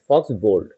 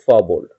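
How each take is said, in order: First: The first word ends with a 'ks' sound. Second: The first word ends with an open vowel. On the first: The speaker calls it wrong. "লেখা আছে F A ইউ এক্স, ফক্স bold" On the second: The speaker calls it right. "কিন্তু আমরা উচ্চারণ করব ফ bold"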